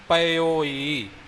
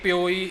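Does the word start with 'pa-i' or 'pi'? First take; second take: pa-i; pi. First: The word starts with separate 'pa-i' syllables. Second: The word starts with a single 'pi' syllable. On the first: The speaker calls it right. "ਸ਼ੁੱਧ ਉਚਾਰਨ ਹੋਵੇਗਾ" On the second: The speaker calls it wrong. "ਕਈ ਕਤੋਈ ਪਿਓਈ ਇਉਂ ਪੜ ਜਾਂਦੇ ਨੇ, ਜੋ ਬਿਲਕੁਲ ਹੀ ਅਸ਼ੁੱਧ ਹੈ"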